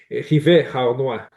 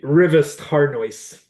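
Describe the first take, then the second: First: The name is said with French pronunciation. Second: The name is said with English pronunciation.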